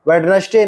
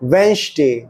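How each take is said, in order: First: A 'd' sound is heard after the first vowel. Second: No 'd' sound is heard after the first vowel. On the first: The speaker calls it wrong. "नहीं है" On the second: The speaker calls it right. "ये है"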